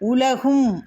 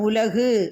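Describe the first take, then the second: First: The word ends with a final m sound. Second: The word ends without a final m sound. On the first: The speaker calls it right. "உலகும் அப்படின்னு தான்" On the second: The speaker calls it wrong. "உலகு அப்படின்னு படிக்கக்கூடாது"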